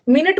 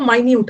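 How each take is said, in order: First: The first vowel is short, like 'min'. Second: The first vowel is long, like 'my'. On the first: It means sixty seconds. The speaker calls it wrong. "मिनट मत पढ़ना" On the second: It means very small. The speaker calls it right. "इसको पढ़ो माइन्यूट"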